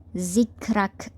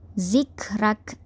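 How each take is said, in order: First: The r is pronounced light and thin. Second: The same.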